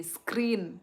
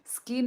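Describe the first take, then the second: First: स्क्रीन said clearly as "skreen", with the r, falling, louder; corrected word. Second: स्किन said plainly as "skin", with no r, louder; the misreading "स्किन", said flat as "skin"; misread word. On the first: Streamer correcting a viewer's misreading, "स्क्रीन" with the r. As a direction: firmly correct it to "स्क्रीन", with the r sounded. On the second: Streamer repeating a viewer's misread word, "स्किन" as "skin". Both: Shown as a demonstration. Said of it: "स्किन नहीं".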